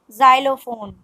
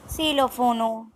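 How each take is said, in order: First: "xylophone" said the English way as zylophone; English pronunciation. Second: "Xylophone" said Spanish-style as silofono; Spanish pronunciation. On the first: Teacher gives the English word, English pronunciation. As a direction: start "xylophone" with a z. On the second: Teacher models the Spanish word, Spanish pronunciation. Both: Shown as a demonstration. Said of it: "X is pronounced as".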